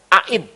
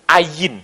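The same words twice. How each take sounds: First: Ain said in two clear syllables, a-IN; correct Ain. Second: Ayin with a gliding y, AH-yin; Western Ayin. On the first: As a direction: say Ain the Middle Eastern way. (ucapkan "Ain" dengan jelas, a-in) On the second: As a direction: say Ayin as a European would. (ucapkan "Ayin" ala orang Eropa, a-yin) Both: Shown as a demonstration. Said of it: "Kata bersama saya".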